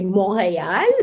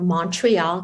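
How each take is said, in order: First: It is said with a French Canadian accent. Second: It is said with an English accent.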